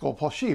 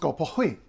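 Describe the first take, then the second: First: Ski begins with an sh sound. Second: Ski begins with an h-like sound. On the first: "if you're going skiing in Norway" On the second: "but in Sweden"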